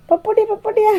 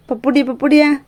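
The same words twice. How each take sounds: First: Much higher, sing-song pet talk. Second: Said in the usual way. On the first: Real, not acted. Owner cooing up high to the puppy, high baby talk.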